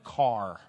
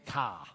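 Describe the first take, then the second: First: The word is said with an r sound. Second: The word is said without an r sound. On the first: "instead of a car" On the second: "in Boston where they don't use an R"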